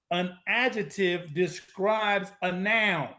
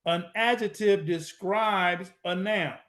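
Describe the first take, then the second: No difference in how they are said.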